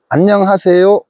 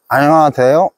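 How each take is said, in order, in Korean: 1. 이 단어는 분명하고 정확하게 발음됩니다. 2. 이 단어는 어눌하고 웅얼거리듯 발음됩니다. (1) "정확히 표현이 되죠" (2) "이렇게 바뀌어 버립니다"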